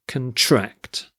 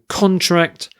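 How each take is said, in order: First: ConTRACT, weak first syllable, stressed second. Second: CONtract, higher on a stressed first syllable. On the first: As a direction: put the stress on the TRACT of "contract". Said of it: "emphasis shifts, the stress shifts". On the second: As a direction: slowly stress the CON of "contract". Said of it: "it's the first syllable that's stressed". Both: Shown as a demonstration.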